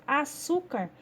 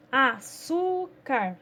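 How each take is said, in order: First: Said in the usual way. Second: "açúcar" very slowly, syllable by syllable, long SU; stressed syllable stretched. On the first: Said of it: "Então, por exemplo". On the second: Shown as a demonstration. Teacher showing pupils the strong syllable, "açúcar" with a long stressed SU. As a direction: draw out and lean on the SU in "açúcar". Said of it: "produz um som mais forte".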